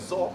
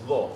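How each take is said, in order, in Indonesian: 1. Konsonannya bunyi z biasa. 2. Konsonannya bunyi dh berat.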